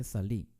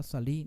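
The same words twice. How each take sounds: First: Salí stressed on the last syllable, sa-LI; correct stress. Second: Salí wrongly stressed on the first syllable, SA-li; wrong stress demo. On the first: Teacher correcting the word, salí stressed on the last syllable. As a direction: say salí as "sa-LÍ", leaning on the final i. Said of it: "se dice salí". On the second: Teacher showing how not to say it, salí stressed on the first syllable. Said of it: "no se dice salí". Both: Shown as a demonstration.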